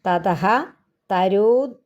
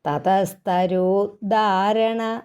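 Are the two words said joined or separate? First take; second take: separate; joined. First: The two words are said separately, split apart. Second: The two words are run together as one. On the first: The speaker calls it wrong. "അവിടെ പിരിക്കാൻ പോയാൽ വായനയ്ക്ക് ഒഴുക്ക് കിട്ടുകയില്ല" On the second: The speaker calls it right. "ഒന്നിച്ചങ്ങ് പറഞ്ഞുകൊണ്ട്"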